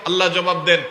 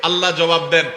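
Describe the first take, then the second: Both takes have the same delivery.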